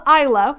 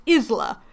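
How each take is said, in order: First: Isla with a silent s; name pronunciation. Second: Isla with short i and z sound; Spanish word pronunciation. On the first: Explaining the Spanish name, pronounced EYE-luh. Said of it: "there is a name called Isla". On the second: Giving the word for island, pronounced IZ-luh. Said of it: "the Spanish word for island". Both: Shown as a demonstration.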